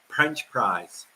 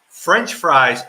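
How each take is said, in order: First: The words start with P sounds. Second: The words start with F sounds. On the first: This is how the accented speaker says it. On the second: This is the usual pronunciation.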